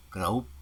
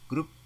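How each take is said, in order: First: "Grup" with OU glide, "group"; "Grup" said like "graup"; nonstandard pronunciation. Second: Short "Grup" with U; "Grup" said as brief groop; standard pronunciation. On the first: Teacher shows wrong form, "Grup" as graup. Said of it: "tidak baku". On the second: Teacher models standard word, short "Grup". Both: Shown as a demonstration.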